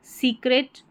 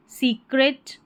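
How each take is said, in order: Both takes have the same delivery.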